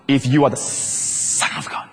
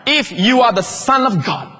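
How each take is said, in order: First: Slow hissed whisper of the tempter; the devil whispering his dare; sinister devil whisper. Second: Slow, higher, taunting challenge from the devil; devil's mocking dare. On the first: Acted. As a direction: breathe it like a secret temptation. Repeating devil's words, hushed. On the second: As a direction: dare him, drawing each word out.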